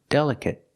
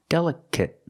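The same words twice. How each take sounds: Both takes have the same delivery.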